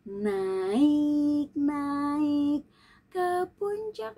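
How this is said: It is said with pauses and lively intonation. The speaker calls it right. "dikasih jeda, dikasih artikulasi dan intonasi"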